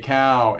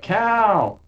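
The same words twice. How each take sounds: First: The word is said flatly, with little energy. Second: The word is said with lively, excited energy. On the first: The speaker calls it wrong. "that wasn't like enough enthusiasm" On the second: The speaker calls it right. "I'm supposed to say like cow"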